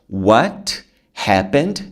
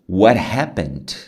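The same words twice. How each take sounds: First: The t in what is a clear t. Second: The t in what sounds like an r.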